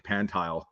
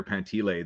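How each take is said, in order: First: Pantile said as PAN-tile; mistaken surname pronunciation. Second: Pantile said as pan-TEE-lay; correct surname pronunciation. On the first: Guest showing what people assume, Pantile pronounced PAN-tile. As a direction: say Pantile in two syllables, rhyming with "tile". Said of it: "they think Pantile". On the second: Guest explaining his last name, Pantile pronounced pan-TEE-lay. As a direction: say Pantile in three syllables, ending in "lay". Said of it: "nobody knows how to pronounce". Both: Shown as a demonstration.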